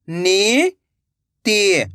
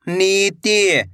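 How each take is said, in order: First: "नीति" split into two long syllables. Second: Said in the usual way. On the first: Shown as a demonstration. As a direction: draw out नी, pause, then ति in "नीति". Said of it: "एक एक अक्षर का उच्चारण". ("नीति" को तोड़कर, नी... ति) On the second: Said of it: "तो मिलके बन जाएगा".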